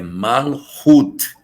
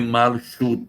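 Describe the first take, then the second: First: The middle consonant is a guttural throat sound. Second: The middle consonant is not a guttural sound. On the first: The speaker calls it right. "o C H no hebraico tem som de J do espanhol, aquele som gutural" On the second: The speaker calls it wrong. "não é Malchut"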